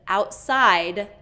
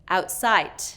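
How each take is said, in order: First: The final D is voiced. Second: The final D is released voiceless. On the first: The speaker calls it right. "instead of outside, d, d" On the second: The speaker calls it wrong. "it's a voiceless release instead of that voiced sound"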